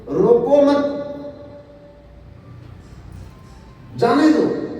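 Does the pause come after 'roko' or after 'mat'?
after mat. The pause comes after 'mat'.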